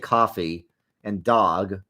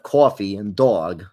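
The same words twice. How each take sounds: First: Midwestern accent with merged, exaggerated vowels. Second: New York accent with distinct, unmerged vowels. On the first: "they say coffee and dog" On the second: "instead of coffee and dog"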